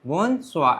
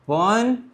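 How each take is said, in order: First: "Bonsoir" joined up, softer, with falling end; soft, connected model of "Bonsoir"; French pronunciation demo. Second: "bonsoir" split into two slow, drawn-out syllables; syllable-by-syllable "bonsoir" for learners; French pronunciation demo. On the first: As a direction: say "Bonsoir" as one word, dropping softly. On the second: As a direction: stretch "bon", pause, then stretch "soir". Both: Shown as a demonstration. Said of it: "how to say good evening in French".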